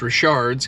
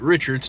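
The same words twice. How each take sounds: First: The name is pronounced the French way. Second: The name is pronounced like the English name. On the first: The speaker calls it right. "Turns out it's Richard's" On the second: The speaker calls it wrong. "So we were calling it Richard's"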